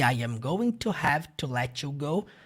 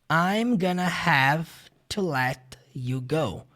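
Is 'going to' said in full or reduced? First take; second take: full; reduced. First: Each word is said fully and separately. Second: The words are contracted and reduced to 'gonna'.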